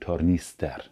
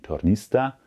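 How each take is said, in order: First: The ending is a full, clearly spoken 'er'. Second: The ending is reduced to an 'a' sound. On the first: The speaker calls it right. "sondern Tornister" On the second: The speaker calls it wrong. "Also bitte kein Tornista"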